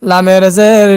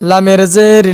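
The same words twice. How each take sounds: Both takes have the same delivery.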